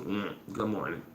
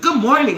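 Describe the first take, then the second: First: It is said in a grumpy, reluctant way. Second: It is said in a cheerful, upbeat way.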